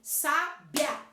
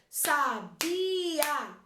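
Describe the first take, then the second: First: The final i and a form one syllable. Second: The final i and a are separate syllables. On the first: "esses sons saem juntos" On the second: "se eu falo sons separados"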